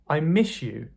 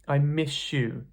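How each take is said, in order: First: Miss ends with a sh sound. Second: The same.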